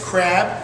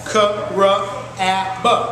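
First: The word is said as one smooth unit. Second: The word is said as four separate sounds.

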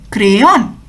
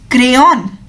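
The two takes are said the same way.

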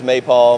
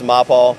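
First: The name is said the usual American way. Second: The name is said the original German way. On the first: "In the U.S., it's MAPAL" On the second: "Globally, it's really pronounced MAPAL"

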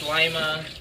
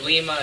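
First: It uses the local Ohio pronunciation. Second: It uses the usual pronunciation heard elsewhere. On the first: This is how locals name the Ohio town. "it's Lima" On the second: This is how it is said everywhere else. "instead of Lima"

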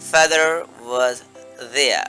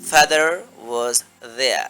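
The two takes are said the same way.

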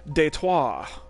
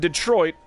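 First: It is said with a French accent. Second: It is said with an American accent.

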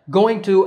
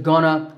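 First: Both words are said fully and separately. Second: The words blend into one reduced form.

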